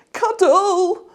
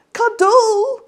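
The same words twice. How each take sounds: First: High, loud demanding shout; child shouting. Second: Very high, loud wailing howl; child howling. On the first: Petey shouts at Mum for a cuddle, high loud cry. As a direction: bellow it like a small boy. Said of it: "he shouted". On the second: Petey howls at Mum for a cuddle, high wailing cry. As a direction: wail it, close to tears. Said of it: "he howled". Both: Acted.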